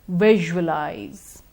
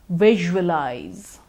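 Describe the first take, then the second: No difference in how they are said.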